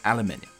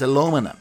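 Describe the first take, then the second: First: It is said the British way, five syllables. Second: It is said the American way, four syllables.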